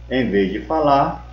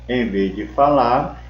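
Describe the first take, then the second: No difference in how they are said.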